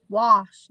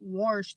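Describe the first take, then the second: First: The word is said without an R sound. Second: The word is said with an R sound. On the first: The speaker calls it right. "It's wash, There's no R in it" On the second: The speaker calls it wrong. "not wash"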